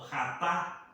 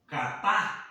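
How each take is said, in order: First: Second "jatá" opened with a Spanish J sound; pronunciation demo. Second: First "jatá" sounded out slowly, stressed on the final á; pronunciation demo. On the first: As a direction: say "jatá" slowly, stress on the last á. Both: Shown as a demonstration. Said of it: "la pronuncio de esa manera".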